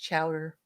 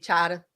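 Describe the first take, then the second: First: It is said with a local accent. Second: It is said with a Boston accent. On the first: "But here it's chowder" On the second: "in Boston, it would be chowder"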